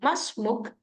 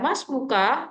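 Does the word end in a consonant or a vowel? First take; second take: consonant; vowel. First: The word ends on a bare consonant. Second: The word ends with a full final vowel. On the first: The speaker calls it right. "tapi cukup Mas Muk" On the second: The speaker calls it wrong. "tidak usah dibaca Mas Muka"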